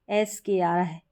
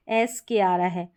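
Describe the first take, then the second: No difference in how they are said.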